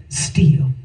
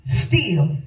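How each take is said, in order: First: Whispered still. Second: Said in the usual way. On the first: Shown as a demonstration. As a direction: whisper the word Still, barely voiced. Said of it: "So in spite of it all". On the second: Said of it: "Still is in spite of that or this".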